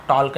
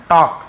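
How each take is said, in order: First: टॉक with the L sounded, "tolk"; wrong pronunciation. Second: टॉक with no L sound; silent L. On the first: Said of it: "नहीं है". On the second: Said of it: "एल silent है". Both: Shown as a demonstration.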